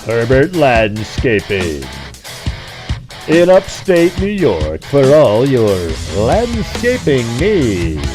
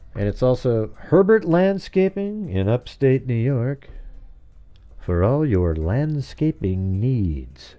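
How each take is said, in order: First: It is said in a commercial announcer voice. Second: It is said in his normal voice.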